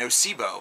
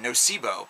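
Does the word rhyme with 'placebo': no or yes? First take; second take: yes; yes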